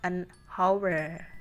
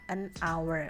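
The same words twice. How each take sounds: First: Hour begins with an h sound. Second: Hour begins with a vowel sound. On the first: The speaker calls it wrong. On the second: The speaker calls it right. "Jadi huruf awalnya pengucapannya adalah a"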